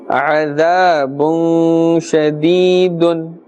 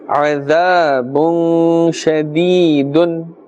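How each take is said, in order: Both takes have the same delivery.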